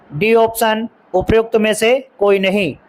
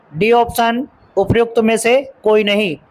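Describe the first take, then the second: The two takes are said the same way.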